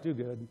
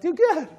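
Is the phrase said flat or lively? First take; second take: flat; lively. First: It is said flat with little energy. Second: It is said upbeat with lively energy. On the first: The speaker calls it wrong. "you can't say it like" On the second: The speaker calls it right. "You got to say it like, ... it just automatically like lifts your spirit"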